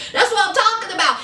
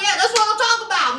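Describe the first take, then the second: First: Quick, eager echo; fast agreeing. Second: Fast, eager hype-man agreement; fast agreeing. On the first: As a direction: rattle it off fast again, nodding along. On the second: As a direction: rattle it off fast, cheering him on. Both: Retold or imitated. Robert backing up his brother, fast and eager. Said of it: "Robert giving his brother that".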